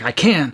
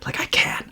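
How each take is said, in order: First: It is said loudly and forcefully. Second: It is a faint, breathy, panting whisper. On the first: How it felt to say it. "I was like yelling it forcefully and strong" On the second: How it actually came out on the recording. "barely like whispering it out as like a little pant"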